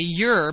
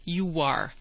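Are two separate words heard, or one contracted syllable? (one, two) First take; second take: one; two. First: It is contracted into a single syllable. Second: Two words are joined by a linking W sound. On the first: "You can contract it and say you're" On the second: "Hear that W?"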